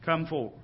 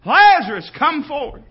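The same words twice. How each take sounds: First: Low, soft command after a shout; quietly spoken summons; subdued command. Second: Loud, high summons; booming preacher calling out the dead; majestic, powerful command. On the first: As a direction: drop right down to say it. Softer take of the hollered command. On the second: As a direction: holler it with full authority. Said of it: "by the majesty and the power of his voice". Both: Acted.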